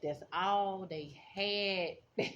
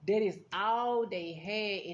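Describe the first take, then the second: First: Very slow, each word weighed; slow emphasis. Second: Slow and louder, "all" hit hard; loud emphasis. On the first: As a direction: let "all" sink in slowly. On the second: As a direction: press every word, louder. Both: Real, not acted.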